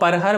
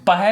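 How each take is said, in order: First: The word begins with a pr cluster. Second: The word begins with a plain p sound. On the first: This is the proper form of the term. "But actual में उसको परहर बोला जाता है" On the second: This is the everyday colloquial form. "पहर हम लोग बोलते हैं जनरल से भाषा में"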